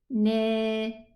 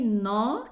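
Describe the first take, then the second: First: The vowel is thinned until it sounds like e. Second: The syllable is said full and heavy. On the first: "exaggerate in lowering this letter" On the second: "it's an elevated pronunciation"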